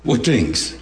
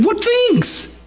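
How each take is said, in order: First: "What things?" asked lower and gently, with a smile. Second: High, startled "What things?" with "things" falling; surprised question. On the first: Shown as a demonstration. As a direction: let a knowing smile colour "What things?". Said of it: "he had to say this with a smile on his face". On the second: Pretend. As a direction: ask "What things?" as if truly surprised, much higher. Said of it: "he had to say this with a smile".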